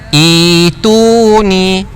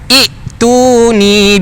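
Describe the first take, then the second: First: The first vowel is long, with no stop. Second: A glottal stop follows the first vowel. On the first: The speaker calls it right. "hamzah ini diibdalkan menjadi ya" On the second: The speaker calls it wrong. "pena kata salah"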